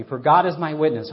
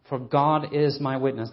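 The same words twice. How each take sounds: First: "God" declared louder with weight; emphatic reading. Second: Said in the usual way. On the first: Shown as a demonstration. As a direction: proclaim it, not lightly. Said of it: "don't use that phrase lightly". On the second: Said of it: "And verse eight".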